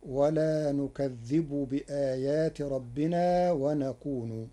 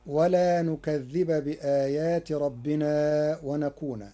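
First: Slow recitation, نكذبُ ... ونكونُ; Warsh reading. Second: Recited نكذب ... ونكون with final a; Hafs reading. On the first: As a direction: recite نكذب and ونكون ending in -u. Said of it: "برفع الباء ... برفع النون، فتصير". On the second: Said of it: "قرأ ورش كلمتي ولا نكذب ... برفع". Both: Shown as a demonstration.

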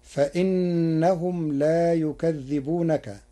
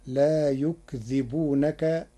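First: Slow recitation of يكذبونك, yu-ka-dhdhi-bu-na-ka; Hafs reading. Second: Slow recitation of يكذبونك, yuk-dhi-bu-na-ka; Warsh reading. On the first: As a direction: recite يكذبونك with doubled dhal, yukadhdhibunaka. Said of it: "بسكون الكاف وتخفيف الذال". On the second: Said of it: "بسكون الكاف وتخفيف الذال، فتصير". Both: Shown as a demonstration.

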